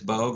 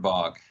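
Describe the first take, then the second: First: The vowel is long, rhyming with rogue. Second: The vowel is short, rhyming with fog.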